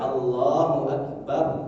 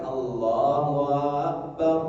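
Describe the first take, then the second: First: The first vowel of Akbar is kept short. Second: The first vowel of Akbar is drawn out long. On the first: It states that God is the greatest. The speaker calls it right. "yang benar kan Allahu Akbar" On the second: It asks whether God is the greatest. The speaker calls it wrong. "memanjangkan Allahu Akbar. Itu salah"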